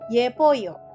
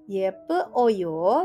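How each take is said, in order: First: The e vowel is dropped and merged quickly. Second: The e vowel is heard before oyo.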